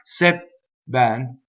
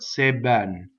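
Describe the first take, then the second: First: The voicing stops briefly at the double B. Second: The double B is held with continuous voicing. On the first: The speaker calls it wrong. "It's not c'est ben with the stop" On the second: The speaker calls it right. "but c'est ben"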